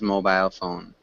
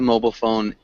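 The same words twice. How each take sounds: First: The i in mobile is a long i. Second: The i in mobile is short, not long. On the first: The speaker calls it wrong. "it should have a long I ... I don't think I know anybody who says mobile phone" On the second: The speaker calls it right. "It's a mobile phone"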